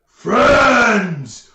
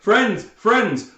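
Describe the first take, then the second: First: Very loud, high ogre bellow; ogre roar. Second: Raised, louder retelling of a shout; imitated call. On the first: Acted. Ogre answering the player with a smile, roaring. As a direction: bellow it as a big friendly ogre. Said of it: "he says". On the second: Game master repeating player's call to ogre, mock shout. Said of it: "you duck back and you say".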